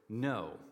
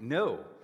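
First: It is said at a normal, quiet level. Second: It is yelled loudly and forcefully.

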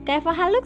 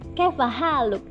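First: It is said with a local Indonesian intonation. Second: It is said with a native Arabic intonation. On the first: The speaker calls it wrong. "Nggak bisa kaifa haluk sih kan" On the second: The speaker calls it right. "begitu kan lahjahnya, begitu intonasinya"

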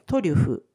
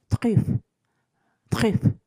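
First: It is said with Japanese katakana sounds. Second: It is said with French sounds.

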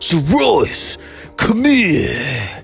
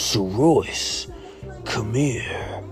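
First: It is yelled loudly. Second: It is said quietly and absently.

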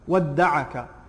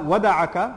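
First: The d sound is long and doubled. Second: The d sound is short and single. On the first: "the shadd on, wadda'aka. By the majority of the Qurra" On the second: "not wada'aka"

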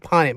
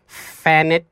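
First: The name starts with a P sound. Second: The name starts with an F sound. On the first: The speaker calls it right. "my name is Ponit" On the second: The speaker calls it wrong. "the teachers would be like Fanit, cause the PH"

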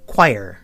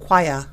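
First: It is said in an American accent. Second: It is said in a British accent. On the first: "so we pronounce it choir" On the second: "Brits pronounce it choir"

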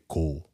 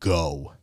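First: The vowel is kept short. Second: The vowel is drawn out long. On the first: The speaker calls it right. "You say go" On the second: The speaker calls it wrong. "you don't extend O. You don't go go"

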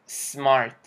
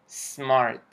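No difference in how they are said.

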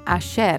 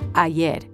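First: The y is pronounced with a sh sound. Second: The y is pronounced as a y sound. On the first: This is how it sounds in an Argentine accent. "They pronounce their double L's and Y's with a sh sound, as in ayer" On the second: This is how it sounds outside Argentina. "instead of ayer"

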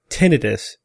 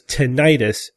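First: The ending does not sound like 'itis'. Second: The ending sounds like 'itis'. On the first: The speaker calls it right. "I prefer tinnitus" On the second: The speaker calls it wrong. "tinnitus sounds like inflammation, and that is misleading"

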